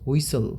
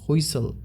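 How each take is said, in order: No difference in how they are said.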